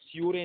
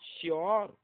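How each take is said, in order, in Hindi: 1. शब्द के अंत में एक अतिरिक्त 'ay' स्वर आता है। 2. शब्द का अंत 'oor' ध्वनि से होता है। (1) "श्यूरे नहीं" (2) "ओ पढ़ेंगे"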